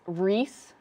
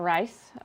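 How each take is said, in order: First: The vowel sounds like 'ee'. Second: The vowel sounds like 'eye'. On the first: The speaker calls it right. "So it's Reese" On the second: The speaker calls it wrong. "not Rice"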